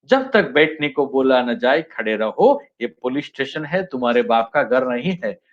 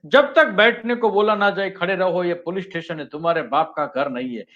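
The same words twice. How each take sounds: First: Same film line read lower like a station announcer; railway announcement. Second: A hint of a stern, commanding cop, fading quieter; lightly voiced film hero laying down the law; Amitabh Bachchan's Zanjeer line. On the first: Teacher shows the line spoiled as a railway announcement, mock announcer. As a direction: drone the warning like a platform announcement, rising line ends. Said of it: "जैसे railway station पे announcement होता है". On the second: Teacher quoting the police inspector's famous warning, lightly acted. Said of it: "जंजीर का अमिताभ बच्चन का dialogue है".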